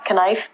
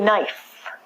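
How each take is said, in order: First: The word starts with a K sound. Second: The word starts with an N sound. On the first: The speaker calls it wrong. "not knife" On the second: The speaker calls it right. "take the silent letter out"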